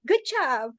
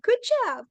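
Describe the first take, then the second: First: Said in the usual way. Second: Much higher, bright excited praise; excited cheer. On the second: Retold or imitated. Cheering on classmates with a much higher excited good job. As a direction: leap way up in pitch to cheer them on.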